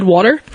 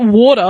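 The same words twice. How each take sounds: First: Water with a sounded final R; water, ending in a clear "er"; own hybrid pronunciation. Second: Water as "waw-tuh"; mock Aussie water, rounded "waw"; mocked Aussie pronunciation. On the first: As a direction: say water with an American-style R. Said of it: "for how I said water". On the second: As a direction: say water with an O vowel and no final R. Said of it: "Where's the O in there?". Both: Shown as a demonstration.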